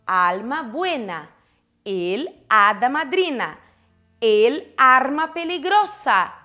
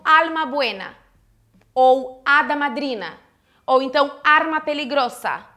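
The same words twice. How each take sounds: First: "el alma buena", "el hada madrina", "el arma peligrosa" spelled out slowly, each el clearly apart; slow careful model. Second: Said in the usual way. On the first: Shown as a demonstration. Teacher modelling the correct article slowly for students. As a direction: lay out the correct form slowly for the class. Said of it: "Eu vou colocar o el". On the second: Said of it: "eu não vou botar o lá na frente".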